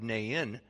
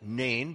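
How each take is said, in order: First: The name is said as two syllables. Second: The name is said as one syllable. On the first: The speaker calls it right. "you have to make it a two-syllable word" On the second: The speaker calls it wrong. "I've always called it Nain"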